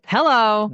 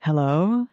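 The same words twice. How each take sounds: First: It is said with strong force. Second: It is said with gentler force.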